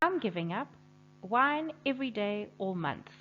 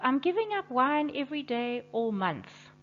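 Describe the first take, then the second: First: There is a pause right after 'giving up'. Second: There is no pause right after 'giving up'.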